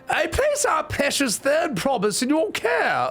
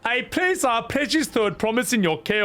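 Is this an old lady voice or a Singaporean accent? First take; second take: old lady; Singaporean accent. First: It is spoken in an old woman's voice. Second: It is spoken with a Singaporean accent. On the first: The speaker calls it right. "yeah, she's an old lady" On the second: The speaker calls it wrong. "or a Singaporean voice?"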